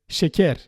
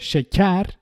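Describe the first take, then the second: First: The first vowel is a plain, normal 'e'. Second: The first vowel is open, close to an 'a'. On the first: "just go for the normal E" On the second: "instead of şeker"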